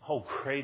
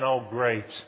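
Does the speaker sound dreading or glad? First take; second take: glad; dreading. First: It sounds sincere and glad. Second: It sounds sarcastic and full of dread. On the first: The speaker looks forward to going. The speaker calls it right. "I sure am glad" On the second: The speaker does not want to go. The speaker calls it wrong. "and dreading going"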